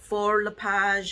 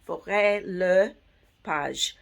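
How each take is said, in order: First: The first word ends without a vowel sound. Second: The first word ends with an audible vowel. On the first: The speaker calls it wrong. "I know some people pronounce it for Lepage" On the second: The speaker calls it right. "you actually pronounce the E part of that sound"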